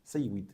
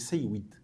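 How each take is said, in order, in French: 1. La consonne du milieu contient un son W. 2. La consonne du milieu contient un son W.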